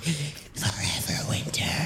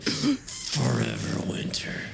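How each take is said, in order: First: It is said in a plain voice. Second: It is said in a low growl.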